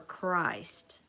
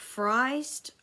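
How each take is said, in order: First: The word begins with a K sound. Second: The word begins with an F sound.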